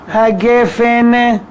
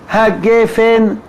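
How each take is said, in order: Both takes have the same delivery.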